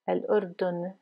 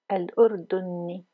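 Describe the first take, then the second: First: The word ends on the consonant n. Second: The word ends with an i vowel. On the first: The simple form without the ending. "vous pouvez dire simplement Al-Urdun" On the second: The word carries its case ending. "Le I à la fin est une déclinaison"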